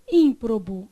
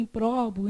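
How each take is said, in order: First: "ímprobo" stressed on ÍM, weak last syllables; stress on first syllable. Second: "improbo" misread with the stress on PRO; stress on middle syllable. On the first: Teacher reading the word correctly to the class, first-syllable stress. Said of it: "O que tá escrito?". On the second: Teacher imitating students' misreading, middle-syllable stress. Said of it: "eles vão lá e lêem". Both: Shown as a demonstration.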